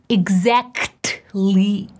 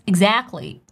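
First: The T in the middle is clearly pronounced. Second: The T in the middle is dropped. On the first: "I'm not saying exactly" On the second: "This T disappears"

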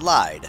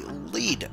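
First: The vowel sounds like the one in 'side'. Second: The vowel sounds like the one in 'need'. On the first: The speaker calls it wrong. "not lied" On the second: The speaker calls it right. "It's actually lead jungle"

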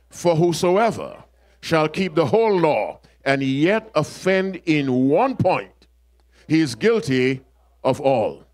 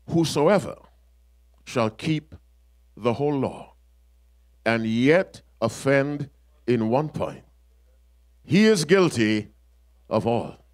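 First: It is said at a normal pace. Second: It is said slowly.

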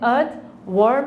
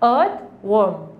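First: The R sound is clearly pronounced. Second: The R sound is soft and silent. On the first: The speaker calls it wrong. "इसको आपने अर्थ वर्म नहीं कहना" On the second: The speaker calls it right. "आर जो है यहाँ पे soft यानी silent है"

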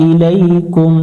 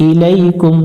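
The two takes are said the same way.

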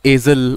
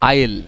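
First: Said with a z-like consonant in the middle. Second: Said with no consonant in the middle. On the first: The speaker calls it wrong. "It's not called एजल" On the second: The speaker calls it right. "This is called an आयल"

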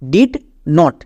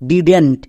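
First: It is said as two separate words. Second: It is said as one contracted word. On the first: The speaker calls it wrong. "নট ডিড নট" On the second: The speaker calls it right. "একসঙ্গে উচ্চারণ করব ডিডেন্ট"

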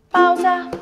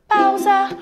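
No difference in how they are said.

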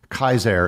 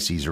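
First: The word begins with a hard k sound. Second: The word begins with a soft s sound. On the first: This is the original Latin pronunciation. "would technically be pronounced Kaiser" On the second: This is the familiar everyday pronunciation. "we say Caesar"

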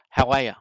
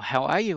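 First: The words are run together and reduced. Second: The words are said fully and separately.

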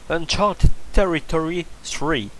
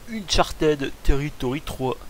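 First: It is said with an American English accent. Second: It is said with a French accent. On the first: "prononcé à l'américaine et tout correctement" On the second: "je la prononcerai à la française"

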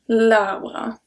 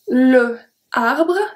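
First: The vowel of le is dropped before arbre. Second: The vowel of le is kept before arbre. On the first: The speaker calls it right. "So we say l'arbre" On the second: The speaker calls it wrong. "the pronunciation is not very good if you say that"

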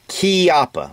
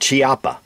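First: The word starts with a k sound. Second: The word does not start with a k sound. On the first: The speaker calls it right. "It's Chiappa, like K-E-Y-A-P-P-A" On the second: The speaker calls it wrong. "or Chiappa"

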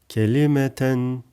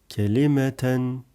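Both takes have the same delivery.

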